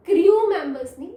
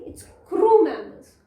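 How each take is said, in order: First: क्रू said as "kriu", with a y glide before the u; wrong pronunciation. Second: क्रू said as "kroo", a plain long oo with no y glide; correct pronunciation. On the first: Teacher showing pupils the wrong way to say क्रू. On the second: Teacher showing pupils the right way to say क्रू. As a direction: say क्रू cleanly as kroo in क्रू members. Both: Shown as a demonstration.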